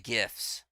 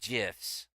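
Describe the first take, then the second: First: It begins with a hard G sound. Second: It begins with a soft J sound. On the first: The speaker calls it right. "I say GIFs" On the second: The speaker calls it wrong. "not GIFs. Otherwise, it would be a J"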